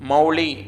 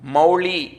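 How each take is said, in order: First: The l sound is plain, tongue not curled. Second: The l sound is retroflex, tongue curled back. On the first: The speaker calls it wrong. "పలకకూడదు" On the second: The speaker calls it right. "అక్కడ అలా పలకాలి మీరు"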